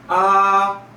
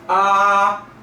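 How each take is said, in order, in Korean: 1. 소리가 높고 평평하게 유지됩니다. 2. 소리가 높고 평평하게 유지됩니다.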